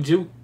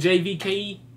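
First: The name is said as one syllable. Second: The name is said as separate letters. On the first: The speaker calls it right. "I'm pronouncing juke" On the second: The speaker calls it wrong. "don't sound right"

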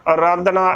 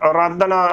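The two takes are said the same way.

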